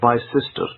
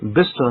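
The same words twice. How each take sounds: First: It is pronounced exactly following its written letters. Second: It is pronounced differently from its written letters. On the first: This is how a reader would guess it from the letters. The speaker calls it wrong. "if I read it in the grammatical form" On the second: This is how local people actually say it. The speaker calls it right. "most people will pronounce it as Bicester"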